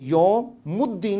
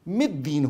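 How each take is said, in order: First: The vowel after yawm is u. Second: The vowel after yawm is i. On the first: The speaker calls it wrong. "नहीं होगा" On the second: The speaker calls it right. "मिद्दीन होगा"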